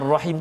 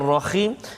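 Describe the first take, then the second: First: The middle consonant is a soft breathy h. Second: The middle consonant is a rasping throaty kh. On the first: The speaker calls it right. "kalimah Ar-Rahim tu" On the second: The speaker calls it wrong. "kita tukar"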